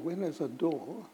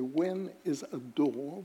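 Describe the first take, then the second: First: It is said lightly, with weight on door. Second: Every word is carefully over-articulated. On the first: The contrast between the two words carries the joke. The speaker calls it right. "you have to just make the word door" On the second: The joke is laboured and loses its point. The speaker calls it wrong. "with great diction, you'll ruin it as well"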